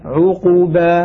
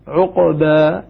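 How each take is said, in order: First: The q sound is followed by a full u vowel. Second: The q sound has no vowel after it. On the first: "إذا ضممنا قلنا عقوبة هكذا لإشباع ضمة" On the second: "عندما نسكن نقول عقوبة"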